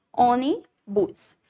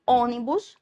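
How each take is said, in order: First: "ônibus" slowly broken up into separate chunks; split into syllables. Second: Said in the usual way. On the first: Shown as a demonstration. Teacher counting the syllables for students, "ônibus" slowly split apart. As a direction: say "ônibus" very slowly, pausing before the last syllable. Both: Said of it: "como tem duas sílabas".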